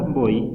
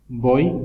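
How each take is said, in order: First: "voy" with the final i sound stressed; stress on final vowel. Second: "Voy" with the o stressed; stress on first vowel. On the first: Teacher giving the word for undress, final stress. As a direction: move the weight to the end of "voy". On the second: Teacher giving the word for snake, stressed o. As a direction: lean on the o, letting the y glide off. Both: Shown as a demonstration. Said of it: "cambia el significado de".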